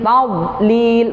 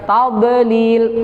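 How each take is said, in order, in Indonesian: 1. Konsonannya ditahan tanpa pantulan. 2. Konsonannya dilepas dengan pantulan.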